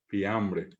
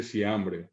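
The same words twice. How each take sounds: First: Said in the usual way. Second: Siambre with s for f. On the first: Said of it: "no dice fiambre". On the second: Shown as a demonstration. Teacher imitates Guaraní speaker saying fiambre. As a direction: swap f for s in siambre. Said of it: "dice siambre".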